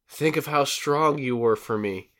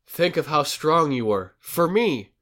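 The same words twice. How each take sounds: First: 'For me' ends the phrase without a break. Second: A break comes before 'for me'.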